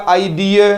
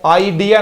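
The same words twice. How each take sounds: First: आइडिया ending in a gliding ia, i-uh; right way. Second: आइडिया ending in a full ya, said as the word not to use; the rejected आइडिया with a plain ya at the end; wrong way. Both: Shown as a demonstration. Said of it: "आइडिया नहीं होगा".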